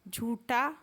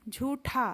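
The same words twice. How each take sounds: First: झूठा said with plain ठ, no aspiration; झूठा को बिना हवा के ट जैसा बोलें; wrong pronunciation. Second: झूठा said with breathy aspirated ठ; झूठा में ठ पर साफ़ हवा छोड़ें; correct pronunciation. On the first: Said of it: "झूठा गलत है". (झूठा ठ की जगह ट के साथ) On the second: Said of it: "झूठा सही है". (झूठा सही महाप्राण ठ के साथ) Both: Shown as a demonstration.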